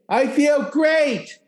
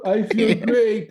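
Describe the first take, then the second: First: It is said with strong, convinced energy. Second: It is said flatly, without energy.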